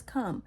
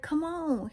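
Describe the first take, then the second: First: Said in the usual way. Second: High, coaxing "come on", falling at the end; retold invitation, pitched up and casual; casual paraphrased call. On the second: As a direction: beckon someone over in a higher voice. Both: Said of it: "He just literally says".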